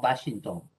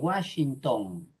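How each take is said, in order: First: The W is pronounced like a B sound. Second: The W is pronounced like a U sound. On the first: The speaker calls it wrong. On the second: The speaker calls it right. "si viene del inglés, suena como U. Se dice"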